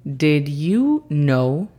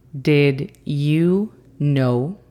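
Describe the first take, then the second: First: Very slow careful English demo; teacher model, very slow; slow model phrase. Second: Very slow careful English repeat. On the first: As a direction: stretch each word clearly. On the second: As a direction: say it again slowly. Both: Shown as a demonstration. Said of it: "Y esa frase es".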